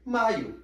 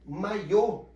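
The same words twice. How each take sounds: First: MAIO stressed on MAI, weak ending; stress on the first syllable. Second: MAIÔ with a strong final Ô; stress on the last syllable. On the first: Teacher showing how accents change words, Maio stressed on MAI. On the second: Teacher showing how accents change words, Maiô stressed on Ô. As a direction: push the ending of Maiô. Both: Shown as a demonstration. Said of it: "percebem a diferença de um acento".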